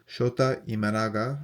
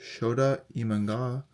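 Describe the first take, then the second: First: Imanaga in four syllables, "ee-mah-NAH-gah"; corrected pronunciation. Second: Imanaga run together as "ee-mahn-gah"; unsure pronunciation. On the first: Card collector retrying a player's name, corrected pronunciation. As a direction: sound out every syllable of Imanaga, "ee-ma-na-ga". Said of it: "I think you pronounce it like that". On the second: Card collector trying a player's name, unsure pronunciation. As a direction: say Imanaga with the middle syllable swallowed, tentatively. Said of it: "is that how you pronounce that". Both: Real, not acted.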